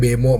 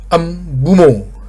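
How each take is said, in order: First: The name begins directly with a B sound. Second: The name begins with an M sound before B. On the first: The speaker calls it wrong. "gua suka ngomong Bemo" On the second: The speaker calls it right. "Jadi emnya diduluin baru Bumo"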